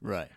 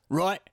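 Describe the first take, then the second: First: Said in the usual way. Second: Higher, rising mock-English "Right"; Hugh Grant. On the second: Shown as a demonstration. Trying an impression for the co-host, mock English accent. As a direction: say "Right" in a put-on British accent. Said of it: "does Hugh Grant talk?".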